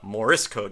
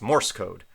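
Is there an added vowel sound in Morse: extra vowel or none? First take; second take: extra vowel; none. First: An extra vowel sound is added in the word. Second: No extra vowel sound is added in the word. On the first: The speaker calls it wrong. "not Morse code" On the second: The speaker calls it right. "but it's Morse code"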